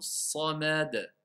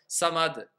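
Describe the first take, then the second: First: Each letter is articulated clearly at moderate speed. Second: It is said very fast, letters run together. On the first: The speaker calls it right. "je vais dire Allahu samad ... on entend bien le mot as-samad" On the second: The speaker calls it wrong. "Ils vont aller à deux cents à l'heure"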